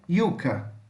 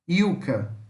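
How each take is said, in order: First: The word begins with a y sound. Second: The word begins with a y sound.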